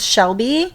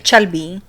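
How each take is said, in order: First: It starts with sh and has a b. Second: It starts with ch and has a b. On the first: The speaker calls it right. "they can't pronounce Shelby" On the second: The speaker calls it wrong. "They say Chelby"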